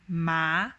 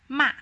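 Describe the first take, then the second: First: The pitch rises steadily upward. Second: The pitch falls from high to low. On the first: "where your voice goes up" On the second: "where the tone descends from the high point to the lowest point"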